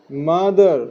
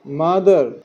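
The two takes are said the same way.

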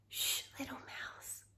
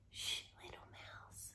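First: Soft hushed shh, little mouse; library whisper. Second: Hushed shh to a little mouse; library whisper. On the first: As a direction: breathe it out like a secret. Refrain whispered again. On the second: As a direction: whisper it so the mouse won't wake. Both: A narrator's reading.

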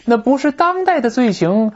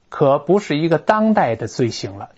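First: 当代 pitched high in 那不是当代的罪行, questioning lift; reader catching implication. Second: Said in the usual way. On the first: Acted. Teacher voices a clever reader spotting a hint, high questioning emphasis on 当代. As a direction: lift "当代" high, as if inferring there is more. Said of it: "聪明的读者立刻听到话里有话".

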